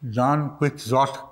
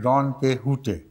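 First: The x is sounded as 'ks'. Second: The x is sounded as 'h'. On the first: This is how the name is read in Urdu. "इसको पढ़ते हैं उर्दू में" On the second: This is how the name is said in Spanish. "Spanish में है डॉन किहोटे"

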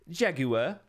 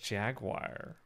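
First: The word is said in a British accent. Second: The word is said in an American accent.

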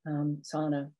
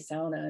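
First: It uses the common outside pronunciation. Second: It uses the local regional pronunciation. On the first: The speaker is not from the area. "instead of sauna" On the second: The speaker is from the area. "where people would say sauna"

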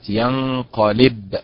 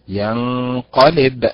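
First: The stress falls on the 'li' syllable. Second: The stress falls on the 'qa' syllable. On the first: The speaker calls it wrong. "هي ليست ينقلب" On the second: The speaker calls it right. "هي ينقلب"

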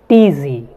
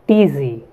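No difference in how they are said.

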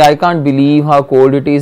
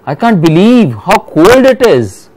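First: The sentence is said in a flat, plain tone. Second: The sentence is said in a lively, feeling tone. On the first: The speaker is literally stating disbelief. The speaker calls it wrong. "If you say, I can't believe how cold it is, means actually you are not believing. It's a sentence" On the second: The speaker is really feeling how cold it is. The speaker calls it right. "But if you are feeling that thing"

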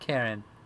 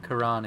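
First: The stress is on the first syllable. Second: The stress is on the second syllable.

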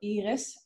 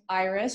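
First: The name is pronounced the Dutch way. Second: The name is pronounced the English way.

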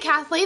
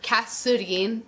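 First: The name is said with an English th sound. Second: The name is said without a th sound. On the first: "If they say Kathleen" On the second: "they usually call me Katurin or Katsurin"

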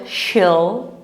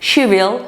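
First: Will is contracted into one syllable with she. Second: Will is said as a full separate word.

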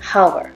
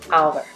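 First: The word starts with an audible h sound. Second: The word starts with a vowel, no h. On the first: The speaker calls it wrong. "it's not hour" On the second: The speaker calls it right. "H sound is not pronounced"

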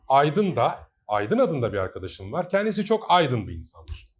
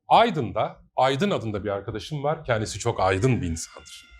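First: The stress on the Aydın words falls in misplaced positions. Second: Each Aydın carries its usual, natural stress. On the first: The speaker calls it wrong. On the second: The speaker calls it right.

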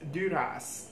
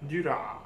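First: The name ends with an audible s sound. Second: The name ends without any s sound. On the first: The speaker calls it right. "the pronunciation was Duras" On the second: The speaker calls it wrong. "not Dura"

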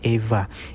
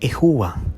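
First: The middle consonant is a v sound. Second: The middle consonant is an hw sound. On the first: The speaker calls it wrong. "Hindi po yan Eva" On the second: The speaker calls it right. "Ito po ay Ehua"

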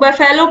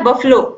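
First: The middle syllable has a full 'e' vowel. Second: The middle vowel is reduced and barely heard. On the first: The speaker calls it wrong. "इसको maximum लोग बफेलो पढ़ते हैं" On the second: The speaker calls it right. "लेकिन इसका जो pronunciation होता है वो होता है बफलो"

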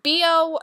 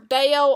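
First: The name is said as two separate letters. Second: The name is said as one blended word. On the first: The name sounds like body odor. The speaker calls it wrong. "next up we have B.O" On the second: The name avoids sounding like body odor. The speaker calls it right. "I like to say it Bayo"

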